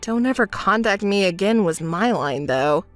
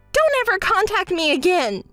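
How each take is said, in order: First: Low, unbothered quote; calm, wry aside; dry, deadpan remark. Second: High, indignant parting shot; huffy, emphatic dismissal; angry outburst. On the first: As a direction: repeat it wearily in a low voice. Drily repeats friend's parting words. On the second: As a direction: storm off with a high-pitched retort. Storms off, breaking off friendship. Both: Acted.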